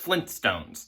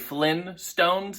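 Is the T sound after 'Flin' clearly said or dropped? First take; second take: clearly said; dropped. First: The T sound after 'Flin' is clearly said. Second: The T sound after 'Flin' is dropped. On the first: The speaker calls it right. "It's Flintstones" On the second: The speaker calls it wrong. "A lot of people say Flynn Stones. It's not"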